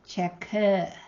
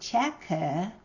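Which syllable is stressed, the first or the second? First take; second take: second; first. First: The stress is on the second syllable. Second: The stress is on the first syllable. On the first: This is the word as borrowed into the other language. "the stress falls on the next syllable" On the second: This is the original word before borrowing. "Instead of cheku"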